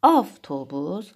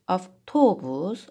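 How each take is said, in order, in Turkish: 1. Vurgu birinci hecededir. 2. Vurgu ikinci hecededir.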